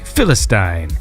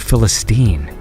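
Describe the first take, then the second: First: The last syllable rhymes with 'Stein'. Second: The last syllable sounds like 'steen'. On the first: This is how it is said in Britain. "I think Stein is, I've heard it said on British T V" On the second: This is how it is said in North America. "in North America they say"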